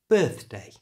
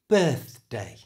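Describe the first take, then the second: First: It is said at a normal, natural speed. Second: It is said slowly with an exaggerated th sound. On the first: "let's do them at normal speed" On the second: "I'll say them slowly and exaggerate that sound"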